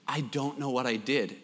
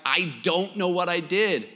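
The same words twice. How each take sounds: First: Low, soft imitated boyish reply; meek mumble. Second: Imitated reply, spoken up to be heard; pleading repeat. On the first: Tearful son answering his scolding mom, meek mumble. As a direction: mumble it meekly under your breath. Tearful boy answers mother, unheard first time. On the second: Son repeating himself to his mom, pleading protest. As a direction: repeat it more clearly, in protest.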